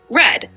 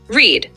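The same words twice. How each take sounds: First: It is pronounced as the past-tense form. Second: It is pronounced as the present-tense form. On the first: The action already happened. "The past tense is pronounced like read" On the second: The action happens now or habitually. "while the present tense is pronounced like read"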